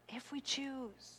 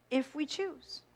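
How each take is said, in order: First: Soft echo. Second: Said in the usual way. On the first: Shown as a demonstration. Echoing her own words to the congregation, hushed and slow. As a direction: repeat it much softer and slower.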